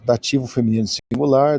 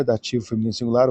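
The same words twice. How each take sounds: First: Said in the usual way. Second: A quick, tossed-off repeat of the label; fast quieter repeat. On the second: Shown as a demonstration. Teacher repeating the grammar label quickly to the class. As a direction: rattle off "dativo feminino singular" quickly and softer. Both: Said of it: "grammar label, then a quick repeat".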